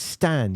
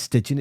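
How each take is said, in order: First: The name sounds like the short word 'Stan'. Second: The name sounds like the longer word 'Stygian'. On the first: The speaker calls it right. "it's Stan" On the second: The speaker calls it wrong. "Don't pronounce it Stygian"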